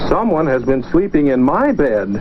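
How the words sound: It is said in a middle-sized voice. The middle-sized bear is speaking. "in her middle-sized voice"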